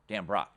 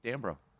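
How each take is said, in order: First: The final T sound is clearly pronounced. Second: The final T sound is left silent. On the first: The speaker calls it right. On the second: The speaker calls it wrong.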